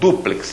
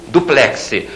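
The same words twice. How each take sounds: First: The stress is on the first syllable. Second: The stress is on the last syllable. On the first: The speaker calls it right. "A palavra é paroxítona, aquele U tem acento" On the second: The speaker calls it wrong. "Você não compra um armário"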